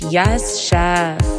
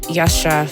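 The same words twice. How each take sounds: First: It is said emphatically, really going off. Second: It is muttered angrily under the breath.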